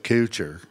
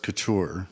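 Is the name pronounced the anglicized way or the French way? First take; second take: anglicized; French. First: The name has an anglicized, Texan-style pronunciation. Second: The name has a French pronunciation. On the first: This is the local adaptation accepted after moving. The speaker calls it wrong. "West Texans couldn't say that. And so we kind of acquiesced to Couture" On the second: This is the original family pronunciation. The speaker calls it right. "the right way to pronounce it is the way Jeremy does"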